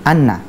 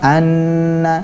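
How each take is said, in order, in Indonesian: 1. Bunyi sengau itu pendek dan biasa saja. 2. Bunyi sengau itu diucapkan panjang. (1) "tadinya adalah" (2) "cara membacanya adalah"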